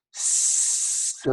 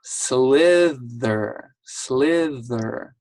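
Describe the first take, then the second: First: "Slither" stretched very long, sound by sound; slow sounding-out. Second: "Slither" as a whole word, not stretched out; said faster. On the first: Teacher demonstrating before saying it fast, slow sounding-out. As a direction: hold the S, L and TH of "Slither". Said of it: "we'll try it one more time". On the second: Teacher showing pupil the word at speed, said faster. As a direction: say "Slither" in one go, TH still clear. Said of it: "So now I'll say it fast". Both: Shown as a demonstration.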